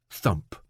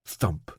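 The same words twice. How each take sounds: The two takes are said the same way.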